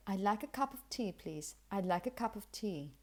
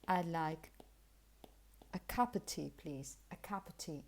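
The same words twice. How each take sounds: First: "of" as unstressed "uhv", v kept; connected model with light "of"; typical weak form. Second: "of" shrinks to schwa, no v: "cuppa tea"; soft, casual "cup of tea" as cuppa; informal reduction. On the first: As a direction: link "cup of tea" smoothly. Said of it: "Typically, you would say". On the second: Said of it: "you can simply say". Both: Shown as a demonstration.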